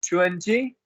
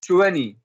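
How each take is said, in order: First: ट्वेंटी with the t clearly sounded, tuenti; ट्वेंटी said carefully with its middle t; full twenty. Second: ट्वेंटी with the middle t dropped, like tweny; ट्वेंटी said the casual way, as twenny; relaxed twenty. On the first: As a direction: sound every letter of ट्वेंटी, nt fully pronounced. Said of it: "ट्वेंटी या फिर ट्वेंटी". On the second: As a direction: let the t in ट्वेंटी melt away into the n. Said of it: "और दूसरा pronounce, pronunciation क्या है?". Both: Shown as a demonstration.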